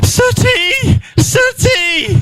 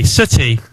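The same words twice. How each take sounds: First: Imitating a neighbour calling her cat, up high. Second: Lower, mournful "Sooty." murmured over the cat; imitating a tearful neighbour, lower; mock teary. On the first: Neighbour finds her dead cat. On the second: She was all teary-eyed.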